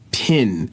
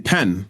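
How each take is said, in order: First: The vowel is an I sound, like 'pin'. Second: The vowel is an E sound, like 'pen'. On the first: The speaker calls it right. "No, it's pin" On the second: The speaker calls it wrong. "I would say pen"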